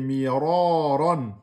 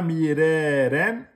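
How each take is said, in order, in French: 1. Le son du r est lourd et emphatique. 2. Le son du r est léger, pas emphatique. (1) "c'est Miroron" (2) "Il n'a pas emphatisé"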